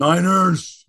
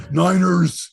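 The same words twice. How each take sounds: First: Louder, put-on "Niners" like Robin Williams; hammed-up Robin Williams shout; Robin Williams impression. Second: Louder, hammed-up "Niners" in a Robin Williams voice; a lightly done Robin Williams "Niners"; Robin Williams impression. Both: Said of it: "It's more Robin Williams".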